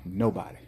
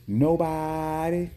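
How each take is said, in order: First: Said in the usual way. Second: Nobody stretched very slow and higher; drawn-out Nobody. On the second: Shown as a demonstration. Vendor at an empty park, slow drawn Nobody. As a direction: draw out Nobody slowly for effect.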